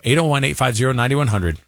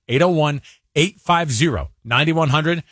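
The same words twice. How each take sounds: First: The number is said at a quick pace. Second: The number is said at a slower pace.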